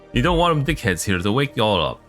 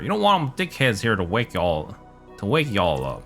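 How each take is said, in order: First: It is said in a neutral accent. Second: It is said in a Southern accent.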